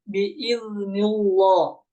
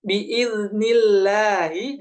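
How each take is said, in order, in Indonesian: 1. Huruf l pada Allah dibaca tebal. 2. Huruf l pada Allah dibaca tipis. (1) "Jangan sampai dibaca tebal" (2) "dibaca tipis"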